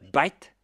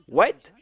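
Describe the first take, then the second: First: It begins with a B sound, Indian English. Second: It begins with a W sound, standard English.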